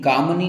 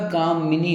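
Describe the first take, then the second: First: कामनी in two syllables, kaam-nee; wrong form. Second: कामिनी slowed, kaa-mi-nee with a clear i; correct form. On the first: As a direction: drop the short i from कामनी. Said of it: "कामनी नहीं होता". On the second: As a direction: sound the mi in कामिनी, taking it slowly. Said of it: "मिनी, ठीक है". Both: Shown as a demonstration.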